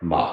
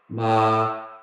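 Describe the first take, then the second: First: The pitch dips low, then rises. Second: The pitch stays high and level. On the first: "It goes down and up" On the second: "first tone is like a robot"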